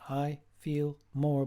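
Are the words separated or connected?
separated. The words are said separately, chopped apart.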